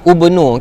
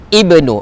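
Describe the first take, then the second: First: The word begins with an u vowel. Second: The word begins with an i vowel. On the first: The speaker calls it wrong. "Kalau ibtidak, jadi ubnu" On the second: The speaker calls it right. "Tapi saya tak baca ubnu, saya baca Uzairun ibnu"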